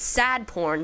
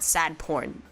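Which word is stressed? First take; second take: sad; porn. First: The word sad carries the stress. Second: The word porn carries the stress. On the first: It is something that makes you cry a lot. The speaker calls it right. "it's sad porn" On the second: It is actual pornography. The speaker calls it wrong. "not sad porn"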